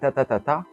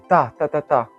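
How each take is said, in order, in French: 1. Le dernier temps est le plus fort. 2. Le premier temps est le plus fort. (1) "le dernier est tapé plus fort" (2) "le premier, il est tapé fort"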